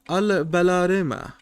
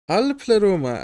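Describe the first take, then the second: First: The name is said with a B sound. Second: The name is said with a P sound.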